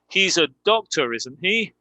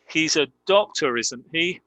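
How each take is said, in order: First: The voice rises on the final tag. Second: The voice rises on the final tag.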